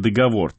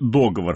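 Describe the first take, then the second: First: The stress is on the last syllable. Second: The stress is on the first syllable. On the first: "по-прежнему можно говорить и «договор»" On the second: "ударение на первый слог в слове «договор»"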